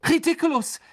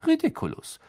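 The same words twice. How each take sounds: First: High, barked spell; Ron. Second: Almost casual spell, without a shout; Lupin. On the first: Ron casting at the giant spider, barking. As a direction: bark the spell out in one burst. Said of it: "bellte Ron". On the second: Teacher casting at the silvery orb, almost casually. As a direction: toss the spell off lightly. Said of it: "sagte er fast lässig". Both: A narrator's reading.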